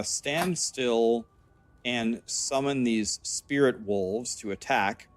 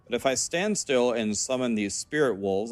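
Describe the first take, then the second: First: Slow, deliberate read of the text; slow reading aloud. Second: Said in the usual way. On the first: Acted. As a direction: read each word out carefully.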